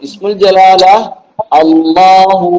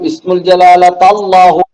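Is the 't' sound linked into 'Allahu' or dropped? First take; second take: dropped; linked. First: No 't' sound; 'Allahu' starts separately. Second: A 't' sound links into 'Allahu'. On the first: The speaker calls it right. "പറഞ്ഞാൽ മതി" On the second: The speaker calls it wrong. "താന്ന് പറയില്ലല്ലോ"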